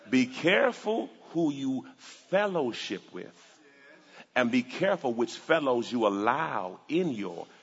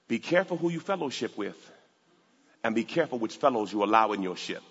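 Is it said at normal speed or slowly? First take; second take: slowly; normal speed. First: It is said very slowly. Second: It is said at normal speed.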